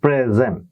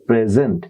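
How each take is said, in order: First: The stress is on the first syllable. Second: The stress is on the last syllable. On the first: It is a noun meaning a gift. "Pray শুরুর দিকে কিন্তু stress" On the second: It is a verb. "শেষের দিকে কিন্তু এটা stress পড়ছে"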